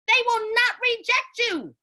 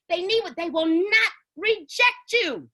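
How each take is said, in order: First: "They will not reject you" said higher and slow; emphatic repeat. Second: Said in the usual way. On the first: Real, not acted. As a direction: lift the pitch and lean on every word of "They will not reject you". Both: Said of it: "repeated for emphasis".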